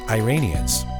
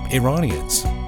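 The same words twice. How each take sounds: First: The word is said in an Americanized way. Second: The word is said in a native-like way. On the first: The speaker calls it wrong. "not Iranians" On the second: The speaker calls it right. "they looked like Iranians"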